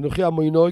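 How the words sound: The last word ends with an 'oi' sound. The line no longer rhymes with the other lines.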